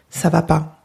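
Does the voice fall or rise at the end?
fall. The pitch falls at the end, as a statement.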